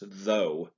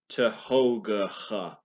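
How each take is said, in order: First: It is one short syllable ending in a vowel. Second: It has several syllables with a hard g sound. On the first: The speaker calls it right. "It's though" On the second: The speaker calls it wrong. "if I was to read this phonetically, it would be pronounced Tehogha"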